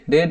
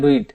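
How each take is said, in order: First: The vowel is short, like in 'red'. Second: The vowel is long, like in 'reed'. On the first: The speaker calls it wrong. "रेड नहीं" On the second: The speaker calls it right. "Should के साथ हमेशा रीड pronounce करेंगे"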